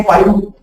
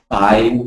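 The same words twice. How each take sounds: First: "five" said wrongly as fie with no v. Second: "five" with the lower lip bitten for v. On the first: Teacher showing the wrong "five" to the class. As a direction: say "five" without biting the lip. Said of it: "you cannot say". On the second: Teacher giving the class the correct "five". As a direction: bite the lip and end "five" with v. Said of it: "It has to be". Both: Shown as a demonstration.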